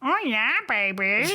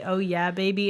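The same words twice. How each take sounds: First: It is said in a strange, cracking voice. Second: It is said in a smooth, sexy voice.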